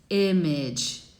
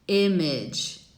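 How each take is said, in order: First: The first vowel is between ee and eh. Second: The same.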